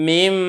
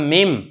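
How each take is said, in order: The two takes are said the same way.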